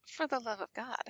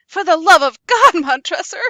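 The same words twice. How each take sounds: First: Much softer, flat repeat; cold mocking echo. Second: Loud, anguished shout; Fortunato's final desperate plea to Montresor; desperate cry. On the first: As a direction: hand his plea back quietly and coldly. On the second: Acted. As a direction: scream it with the last of his hope.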